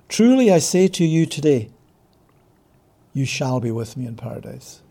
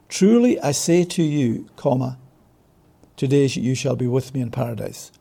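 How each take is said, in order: First: The pause comes after the word today. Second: The pause comes before the word today.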